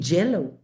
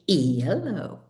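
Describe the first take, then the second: First: The word begins with a J sound. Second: The word begins with a Y sound. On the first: The speaker calls it wrong. "you don't say jello" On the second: The speaker calls it right. "You say yellow"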